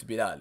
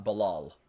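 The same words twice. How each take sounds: First: Bilal as bi-LAAL, stress on the second syllable, long a; the correct Arabic Bilal, stressed laal; Arabic pronunciation. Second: Bilal said the English way, stress on the first syllable: BI-lal; the wrong Americanized Bilal; anglicized name. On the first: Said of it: "It's not Bilal". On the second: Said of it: "you make it sound like Bilal". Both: Shown as a demonstration.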